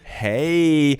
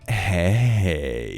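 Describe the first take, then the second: First: It is said in a playful, flirty way. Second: It is said in a drawn-out, drunken flirty way. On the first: The sender is flirting a little. "how you doing, wink"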